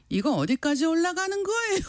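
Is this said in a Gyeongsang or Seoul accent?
Gyeongsang. It is read with Gyeongsang pitch rises. "경상도 분들께 이거 한번 읽어볼래?"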